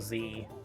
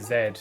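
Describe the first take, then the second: First: The letter is said the American way, zee. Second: The letter is said the British way, zed.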